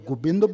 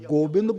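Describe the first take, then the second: First: The first vowel sounds like u. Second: The first vowel sounds like o. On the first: "ਔਂਕੜ ਵੀ ਹੈ" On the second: "ਹੋੜਾ ਵੀ ਹੈ"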